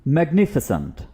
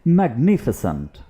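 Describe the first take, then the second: No difference in how they are said.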